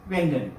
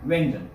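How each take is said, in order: The two takes are said the same way.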